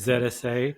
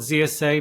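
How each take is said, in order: First: Z is said the non-American way, 'zed'. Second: Z is said the American way, 'zee'.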